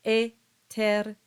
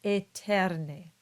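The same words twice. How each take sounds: First: Eterne stressing the e sound; eterne again. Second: Eterne with a pure e at the start; Latin eterne. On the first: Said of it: "it's the same sound". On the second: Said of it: "these two words become". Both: Shown as a demonstration.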